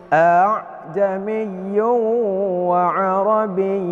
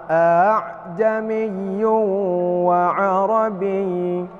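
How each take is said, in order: The two takes are said the same way.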